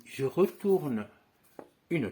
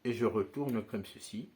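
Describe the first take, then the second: First: "je retourne" drawn out slowly and a bit louder; slow motion. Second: Said in the usual way. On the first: Shown as a demonstration. Magician slowing down "je retourne" for students watching the move. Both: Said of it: "je le fais en ralenti".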